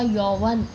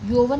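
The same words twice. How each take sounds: First: The first vowel sounds like au. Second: The first vowel sounds like o. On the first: The speaker calls it right. "ये भी देखिए औ की मात्रा आ गई" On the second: The speaker calls it wrong. "यौवन नहीं होता"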